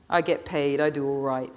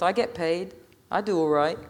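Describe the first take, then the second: First: Understated, scornful mimicry; sneering repetition. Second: Put-on young man's mild brag; boastful Marcus. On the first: Natalie repeating Marcus's boast back at him, sneering. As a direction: echo his boast back with a curled lip. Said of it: "Her lip was curled up in a snarl". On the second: Marcus boasting to the crowd about his money, cocky. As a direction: say it as a cocky lad, unconvincingly. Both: A narrator's reading.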